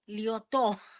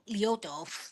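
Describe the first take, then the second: First: The stress is on the last syllable. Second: The stress is on the first syllable. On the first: This is the French way to say the name. "you gotta try to put the the accent at the end of it" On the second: This is the American way to say the name. "American way is just"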